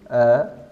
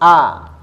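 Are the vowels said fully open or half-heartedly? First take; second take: half-heartedly; fully open. First: The vowels are said weakly, not fully opened. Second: The vowels are said strongly, fully opened. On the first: The speaker calls it wrong. "Jangan tanggung-tanggung" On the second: The speaker calls it right. "Tapi harus"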